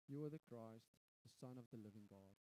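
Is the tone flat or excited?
flat. It is said in a flat, unexcited tone.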